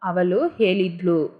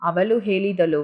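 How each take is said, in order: First: The vowel before the last syllable is dropped. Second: The vowel before the last syllable is said fully. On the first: This is the form used in casual speech. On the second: This is the fuller standard form.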